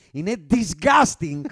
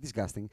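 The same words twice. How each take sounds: First: DISGUSTING shouted, drawn out slowly; very loud. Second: Said in the usual way. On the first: Real, not acted. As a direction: belt out DISGUSTING with emphatic revulsion. (πολύ δυνατά και αργά, με έμφαση στο DISGUSTING) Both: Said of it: "Έπρεπε να το πω πολύ δυνατά".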